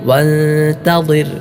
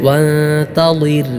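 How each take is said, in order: Both takes have the same delivery.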